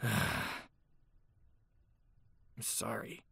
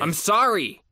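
First: It is muttered reluctantly after a sigh. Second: It is said forcefully and loudly.

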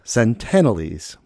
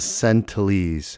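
First: The word is said with all its sounds. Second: Some sounds of the word are left out. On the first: The speaker calls it right. "it's actually the Sentinelese" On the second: The speaker calls it wrong. "I was missing a few letters in there"

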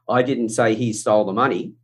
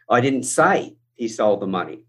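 First: No word in the sentence is stressed. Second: The word 'say' is stressed. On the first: It is a plain statement. "and I said that as a flat, it has one meaning" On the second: It was implied or written, not said. "I could have inferred it. I could have written it"

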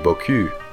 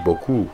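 First: The final vowel is a fronted French 'u' sound. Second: The final vowel is a rounded 'oo' sound. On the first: It means nice backside. The speaker calls it wrong. "But instead you say" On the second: It means a lot. The speaker calls it right. "so you want to say"

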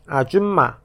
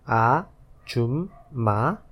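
First: It is said at normal speed. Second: It is said slowly.

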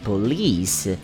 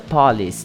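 First: The stress is on the second syllable. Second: The stress is on the first syllable. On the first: The speaker calls it right. "A tônica tá no li" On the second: The speaker calls it wrong. "Polícia em inglês não é police"

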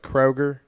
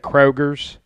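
First: The name ends without any s sound. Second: The name ends with an added s sound. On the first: The speaker calls it right. "but it's Kroger" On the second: The speaker calls it wrong. "when people say Kroger's"

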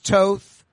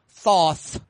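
First: The name starts with a plain t sound. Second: The name starts with a th sound. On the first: "Around 1, it's Toth" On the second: "Or as Joe pronounces it"

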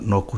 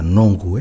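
First: The middle consonant is a k sound. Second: The middle consonant is an ng sound. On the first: The speaker calls it wrong. "my son was saying Noku. And it's not Noku" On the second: The speaker calls it right. "It's the Nongu"

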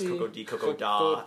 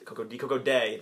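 First: The final word ends in an 'ah' sound. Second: The final word ends in an 'ay' sound. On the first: This is how the group first assumed the title was said. The speaker calls it wrong. "We all thought it was Coco de Coco Da" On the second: This is how the film says the title. The speaker calls it right. "the pronunciation in the film corrected us"

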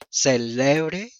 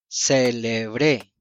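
First: The stress is on the middle syllable. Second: The stress is on the last syllable.

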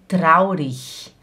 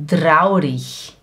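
First: The word ends in a soft 'ich' sound. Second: The word ends in a soft 'ich' sound.

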